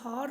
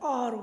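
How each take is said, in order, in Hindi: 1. यह शब्द एच की ध्वनि से शुरू होता है। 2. यह शब्द स्वर की ध्वनि से शुरू होता है। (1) "लेकिन हम इसे हार नहीं बोलते हैं" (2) "हम इसे आर बोलते हैं"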